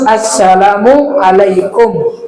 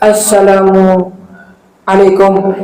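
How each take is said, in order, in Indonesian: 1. Kedua kata itu menyatu tanpa jeda. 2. Ada jeda antara kedua kata itu. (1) "Harus nyambung" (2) "tidak boleh ada jeda antara assalamu dengan alaikum"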